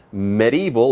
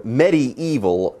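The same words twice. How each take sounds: First: First "medieval" with a short opening vowel; alternative pronunciation. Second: Second "medieval" drawn out with a clear EE; alternative pronunciation. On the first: Co-host explaining the town's old quarter, short-vowel "medieval". Shows two ways to say it. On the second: Co-host explaining the town's old quarter, long-EE "medieval". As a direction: say "medieval" as medi-EE-val. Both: Shown as a demonstration.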